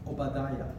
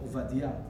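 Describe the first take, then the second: First: The name has its usual English pronunciation. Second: The name has its Hebrew pronunciation.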